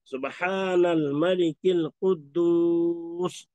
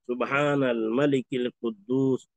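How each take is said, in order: First: It is said loudly and drawn out. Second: It is said at normal loudness and length.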